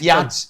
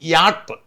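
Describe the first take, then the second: First: The word ends with a ch sound. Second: The word ends with a t sound. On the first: The speaker calls it wrong. "യാച്ചല്ല" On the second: The speaker calls it right. "യാട്ടാണ്"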